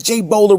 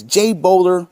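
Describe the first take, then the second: First: "Jay Bowler," said higher and louder, rising at the end; exclaimed name. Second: Jay Bowler read out with a lift; read with exclamation. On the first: Mocking Gokin's chat message, exclaimed higher. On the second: Reading the donor's cheer, mildly exclaimed. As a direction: call out "Jay Bowler," with a bit of punch. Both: Retold or imitated. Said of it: "with an exclamation point".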